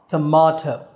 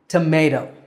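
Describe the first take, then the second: First: The middle syllable sounds like 'mah'. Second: The middle syllable sounds like 'may'. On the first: This is how Brits say it. "for Brits, it's ma" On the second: This is how Americans say it. "For Americans, that syllable is may"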